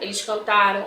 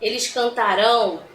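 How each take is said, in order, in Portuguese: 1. A última sílaba é fraca e some. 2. A última sílaba é forte e tônica. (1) "Olha a entonação como até diminui, é fraca" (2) "dá força, né, na entonação"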